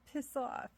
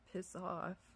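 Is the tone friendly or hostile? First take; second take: friendly; hostile. First: It is said in a light, friendly tone. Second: It is said in a harsh, hostile tone. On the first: The listener takes it as a joke. "you'd smile" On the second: The listener takes it as an insult. "you wouldn't be smiling"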